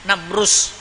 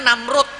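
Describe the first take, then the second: First: The name ends with a z sound. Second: The name ends with a d sound. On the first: The speaker calls it right. "Huruf za di belakangnya" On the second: The speaker calls it wrong. "Orang nyebutnya Namrud, bukan Namrud sebenarnya"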